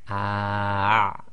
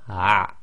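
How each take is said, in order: First: The sound is slow and drawn out. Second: The sound is quick and cut short. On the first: "slowing it right down"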